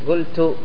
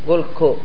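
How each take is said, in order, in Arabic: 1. تنتهي الكلمة بصوت t. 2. تنتهي الكلمة بصوت k.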